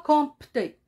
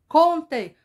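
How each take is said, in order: First: The P is clearly pronounced. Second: The P is silent and not heard. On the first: The speaker calls it wrong. "On ne dit pas compter. C'est faux" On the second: The speaker calls it right. "On dit compter"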